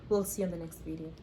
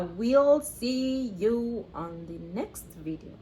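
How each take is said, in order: First: It is said quickly. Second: It is said slowly.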